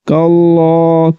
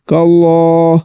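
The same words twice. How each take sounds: First: The L sound is heavy and thick. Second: The same.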